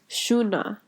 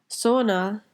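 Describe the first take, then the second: First: It begins with a sh sound. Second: It begins with an s sound. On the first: "the S again turns into a sh sound" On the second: "Sona in Urdu"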